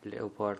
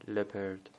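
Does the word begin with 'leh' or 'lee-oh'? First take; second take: lee-oh; leh. First: The word begins with 'lee-oh'. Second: The word begins with 'leh'. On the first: The speaker calls it wrong. "لئوپارد نخونید" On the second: The speaker calls it right. "لپرد به معنی پلنگ"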